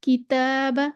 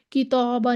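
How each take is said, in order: First: "किताबा" with a thin, light long alif; बारीक अलिफ. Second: "किताबा" with a heavy, rounded "ता"; dark, back long alif in "किताबा"; गलत मोटा अलिफ. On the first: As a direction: keep the "ता" in "किताबा" light and fronted. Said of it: "इसको भी हम बारीक पढ़ेंगे". ("किताबा" का अलिफ बारीक पढ़ें) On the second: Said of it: "नहीं पढ़ेंगे". ("किताबा" का अलिफ मोटा करके) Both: Shown as a demonstration.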